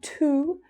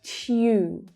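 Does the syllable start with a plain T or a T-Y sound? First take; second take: plain T; T-Y. First: It starts with a plain T sound. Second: It starts with a T-Y sound. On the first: The speaker calls it wrong. "Not tu" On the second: The speaker calls it right. "but tu"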